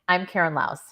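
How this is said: The voice falls at the end like a statement. The speaker sounds confident and sure. The speaker calls it right. "making declarative statements"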